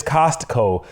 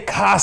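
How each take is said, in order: First: "Costco" with the T sounded; full pronunciation. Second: "Costco" as "COS-co", T dropped; easy pronunciation. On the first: Retold or imitated. Host copying his homegirl, "Costco" with a clear T. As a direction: say "Costco" as "COST-co". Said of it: "My homegirl says". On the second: Shown as a demonstration. Host showing the easier way, "Costco" without its T. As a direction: drop the T from "Costco". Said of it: "just say Costco".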